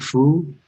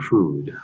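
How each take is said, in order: First: The word is drawn out in a funny voice. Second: The word is said in a normal voice. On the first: "I kind of talk funny" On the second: "instead of saying food"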